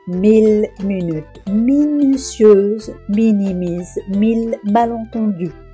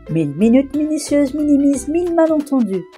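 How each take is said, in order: First: The sentence is said at a slower pace. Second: The sentence is said at a faster pace.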